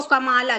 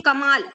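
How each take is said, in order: First: कमाला with a full long "aa" sounded after the L; misreading with final A. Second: Said in the usual way. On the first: Shown as a demonstration. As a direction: voice the last vowel of कमाला. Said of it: "इसको पढ़ेंगे तो कमाला". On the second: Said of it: "जबकि हम क्या बोलते हैं".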